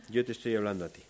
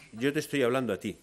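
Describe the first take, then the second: First: "yo" punched; stress on yo. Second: "te" hit hardest, falling tune; "te" punched; stress on te. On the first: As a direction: press on "yo" as the speaker. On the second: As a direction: point at the listener with "te". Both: Shown as a demonstration.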